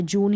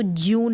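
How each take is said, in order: First: जून as "joon", no glide; oo pronunciation. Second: ज्यून with a y-glide, "jyoon"; wrong yoo pronunciation. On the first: Teacher giving the right reading, जून as "joon". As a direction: say जून with a clean long "oo". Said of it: "जून ही पढ़ते हैं". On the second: Teacher warning against a misreading, ज्यून as "jyoon". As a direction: slip a "y" into ज्यून. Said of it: "नहीं पढ़ेंगे". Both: Shown as a demonstration.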